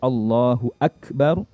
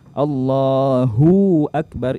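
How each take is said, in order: First: Hu joins akbar with no added sound. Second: The hu sound is lengthened before akbar. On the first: The speaker calls it right. "yang seharusnya di situ" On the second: The speaker calls it wrong. "itu memanjangkan hunya"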